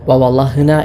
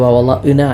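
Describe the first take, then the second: First: The middle sound is a breathy h. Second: The middle sound is a plain glottal stop. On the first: "ഹ ആയിട്ടോ" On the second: "ഹംസ ആയിട്ട്"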